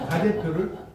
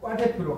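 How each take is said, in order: First: The first consonant is plain. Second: The first consonant is tensed. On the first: This is the standard form. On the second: This is the popular tensed form.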